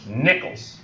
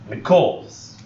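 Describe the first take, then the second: First: The stress is on the first syllable. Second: The stress is on the second syllable. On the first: The speaker calls it right. "that's the first stress" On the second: The speaker calls it wrong. "that doesn't sound right at all"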